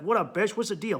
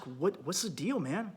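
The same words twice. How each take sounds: First: Cocky, dismissive greeting; the wrong way to ask your wife; rude demand. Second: Soft, caring question to a partner; a soft check-in with your wife; gentle asking. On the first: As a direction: bark it at her like a jerk. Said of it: "just walk up and be like". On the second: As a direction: ask it quietly, like you actually care. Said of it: "No, don't just". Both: Shown as a demonstration.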